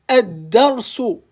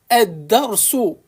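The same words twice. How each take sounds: Both takes have the same delivery.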